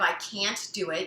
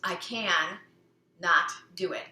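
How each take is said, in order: First: Can't is said as one contracted word. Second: Can and not are said as two words. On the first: "Instead of I can't do it" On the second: "you're breaking the can't"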